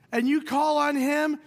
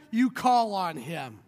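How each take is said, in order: First: Preacher building to you call on him; rising emphasis. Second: Slow, lower you call on him; preacher slowing down the repeated line. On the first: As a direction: lift it up to the congregation. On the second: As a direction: lean back and let it sink in. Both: Acted.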